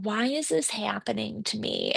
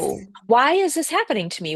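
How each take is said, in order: First: It sounds complaining and self-pitying. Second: It sounds curious and open.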